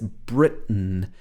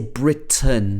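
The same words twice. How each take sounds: First: The middle t is a glottal stop. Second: The middle t is fully pronounced. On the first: "she uses this glottal stop here" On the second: "she doesn't say Britain"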